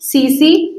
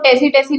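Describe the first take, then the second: First: The t is silent; it begins with s. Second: The word begins with a pronounced t sound. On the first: The speaker calls it right. "टी silent है तो हम इसको पढ़ेंगे सी सी फ्लाई" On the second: The speaker calls it wrong. "इसको टेसी टेसी नहीं पढ़ेंगे"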